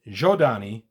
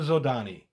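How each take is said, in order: First: The name begins with a 'j' sound. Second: The name begins with a 'z' sound. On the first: "the Joda- Jodani pronunciation" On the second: "We've always said Zodani"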